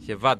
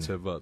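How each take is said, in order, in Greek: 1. Το όνομα αρχίζει με έναν αερώδη ήχο τύπου χ. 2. Το όνομα αρχίζει με ήχο τσ. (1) "τι προφέρεται αυτό τώρα" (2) "Άρα είναι Τσεβάτ"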